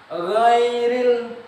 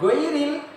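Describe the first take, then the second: First: The word begins with a rasping gh sound. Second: The word begins with a plain hard g sound. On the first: The speaker calls it right. "Go itu tulisannya g, h dan o" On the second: The speaker calls it wrong. "bukan goiril, beda. Nanti artinya berbeda"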